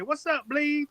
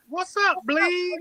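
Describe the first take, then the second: First: "Bleed" said where he'd say blood, pitched up; imitating Podol's Bleed. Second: Coworker's "Bleed" for blood, slow and high; imitating Podol's Bleed. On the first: Retelling a coworker's greeting, pitched up. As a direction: quote his "What's up, Bleed" again, raised. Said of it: "he'd say". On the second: Imitating a coworker's greeting, slow and high. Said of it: "he'd always say this".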